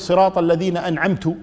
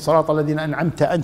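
First: The last word ends in a 'u' vowel. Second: The last word ends in an 'a' vowel. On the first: The speaker claims to have given the blessing. The speaker calls it wrong. "وينسب الإنعام لنفسه" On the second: The blessing is attributed to the one addressed. The speaker calls it right. "بدل ما يقول صراط الذين أنعمت"

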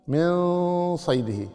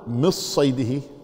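First: The n is hidden with a lingering nasal sound. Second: The n is fully merged into the s. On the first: The speaker calls it right. "وإنما من صيده، من صيده هكذا" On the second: The speaker calls it wrong. "ما تقول مص صيده كالإخفاء الإدغام أبدا"

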